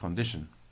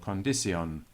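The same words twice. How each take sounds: First: It uses the modern everyday pronunciation. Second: It uses another older, Shakespearean-era pronunciation. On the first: The speaker calls it wrong. "not condition" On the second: The speaker calls it right. "or condition"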